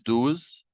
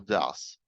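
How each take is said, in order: First: The vowel is long, like in 'do'. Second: The vowel is short, like in 'duz'. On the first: The speaker calls it wrong. "no es does" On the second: The speaker calls it right. "sino does"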